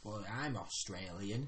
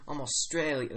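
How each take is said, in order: First: Slow, low attempt at Australian accent; soft, drawn-out Australian vowels. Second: Trying on an Australian accent; broad Australian vowels on "Australian". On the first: Player demonstrating the accent for the game master, Australian. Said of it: "how to do that accent". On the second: Game master copying the player's demo, Australian accent. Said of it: "That works". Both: Shown as a demonstration.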